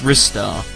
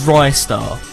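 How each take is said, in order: First: The first syllable sounds like 'wrist'. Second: The first syllable sounds like 'rye'. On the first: The speaker calls it right. "He uses his wrists. It's Ristar" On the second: The speaker calls it wrong. "You don't say it as Rystar"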